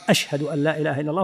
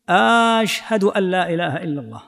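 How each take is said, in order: First: "أشهد" with a short first "a", quick and lower; plain statement delivery. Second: "أشهد" with a long opening "aaash-hadu"; questioning stretched alif. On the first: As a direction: say "أشهد" unstretched, fast and softer, as a statement. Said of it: "يلقي الجملة إخبارا". («أشهد» بلا مدّ، إخبارًا) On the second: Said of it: "هذا يستفهم سؤال استفهام". (مدّ همزة «أشهد» كالاستفهام) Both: Shown as a demonstration.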